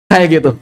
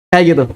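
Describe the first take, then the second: Both takes have the same delivery.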